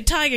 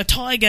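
First: Said in the usual way. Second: "tiger" as "toy-ga", Australian accent attempt; imitated Australian vowel in "tiger". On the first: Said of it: "I can say tiger". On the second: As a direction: try "tiger" the Aussie way. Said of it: "Australian accent type thing".

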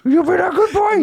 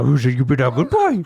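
First: Much higher, laughing dog praise. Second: Praising a good dog; cooing at a pet. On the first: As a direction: squeal it at a puppy. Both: Acted. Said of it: "I even talk to myself in a dog voice".

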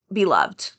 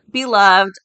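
First: Said in the usual way. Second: Beloved said much louder with gusto; emphatic beloved. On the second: Shown as a demonstration. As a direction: punch out Beloved. Repeats word with emphasis.

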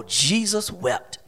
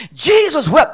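First: Low, slow, very soft verse; hushed solemnity. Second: High-pitched, ringing verse; emphatic proclamation. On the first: Preacher repeating the shortest verse, hushed solemnity. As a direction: drop right down and let it sink in slowly. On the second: Preacher announcing the shortest verse, emphatic proclamation. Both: Shown as a demonstration.

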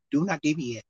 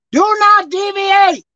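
First: Said in the usual way. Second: "Do not deviate" slow, loud and high, leaning hard on "not"; slow, emphatic warning. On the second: Shown as a demonstration. Preacher warning the congregation, "Do not deviate" slow and loud with "not" stressed.

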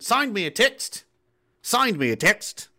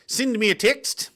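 First: Stretched Aussie "signed me a text", rising; slow, drawn-out attempt at Australian vowels; Aussie accent. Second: Aussie lilt, higher and rising on "text"; Aussie accent. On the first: Practicing the Aussie lesson line, Aussie accent. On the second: Example for the Aussie lesson, Aussie accent. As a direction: try an Aussie "sind me a tixt". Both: Shown as a demonstration. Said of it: "Aussie accent lesson one".

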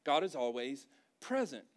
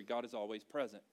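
First: "present" set apart after a pause; emphatic repeat. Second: Said in the usual way. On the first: Real, not acted. Preacher repeating his point to the congregation, emphatic.

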